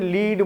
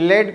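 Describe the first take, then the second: First: The vowel is a long ee, as in leed. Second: The vowel is a short e, as in led. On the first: The speaker calls it wrong. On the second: The speaker calls it right.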